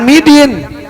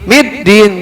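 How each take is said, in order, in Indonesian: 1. Bunyi d-nya tunggal dan pendek. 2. Bunyi d-nya dobel dan ditahan. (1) "jangan midin" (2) "tasdidnya ada di atas huruf dal"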